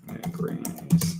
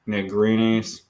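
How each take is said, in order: First: "Negrinis" whispered slowly under the breath; whispered to self. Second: Said in the usual way. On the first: Real, not acted. Typing the hire's surname into the search, slow whisper. Repeating name while typing.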